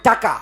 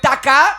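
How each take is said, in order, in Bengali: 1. শব্দটি বিকৃত, যেন জিভ আটকে যাচ্ছে। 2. শব্দটি স্পষ্ট ও স্বাভাবিকভাবে উচ্চারিত হচ্ছে। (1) "উনি বলেন টাকা। ... জিহ্বাটা একটু ছোট" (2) "আমরা বলি"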